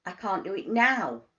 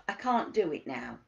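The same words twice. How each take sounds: First: "now" louder, punched at the end; stress on NOW. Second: Said in the usual way. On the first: Shown as a demonstration. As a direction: build to a firm hit on "now". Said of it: "is the emphasis on". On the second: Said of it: "start and think about the emphasis".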